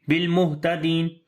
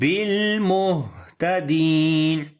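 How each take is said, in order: First: The h is clipped with little breath. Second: The h has air flowing audibly through it. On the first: The speaker calls it wrong. "so this is wrong" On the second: The speaker calls it right. "Properly pronounce the hams quality, like where we flow the air"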